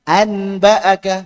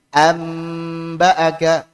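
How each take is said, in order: First: An n sound comes right before the b. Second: An m sound comes right before the b. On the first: It is heavy to pronounce. The speaker calls it wrong. "Yang tadinya anba'aka ... berat?" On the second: It is the easiest to pronounce. The speaker calls it right. "yang iqlab diubah jadi mim ... paling mudah"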